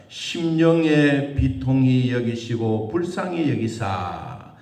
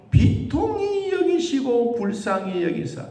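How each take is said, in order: First: Slow, weighty reading with the stress on 심령의; slow scripture reading. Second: Higher and punched on 비통히; emphatic repeat. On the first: Pastor reading the verse to the congregation, slow and solemn. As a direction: read it out slowly, each word 심령의 비통이 laid down with weight. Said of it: "삼십삼 절 끝부분에 보니까". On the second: Pastor stressing the verse's key word 비통히, higher and emphatic. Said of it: "그리고 심령에 뭐한 마음?". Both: Shown as a demonstration.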